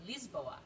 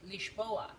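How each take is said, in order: First: It is said with a French pronunciation. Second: It is said with a Portuguese pronunciation. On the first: This is how French speakers say the name. "in French they say Lisboa" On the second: This is how local people say the name. "in Portugal they say Lisboa"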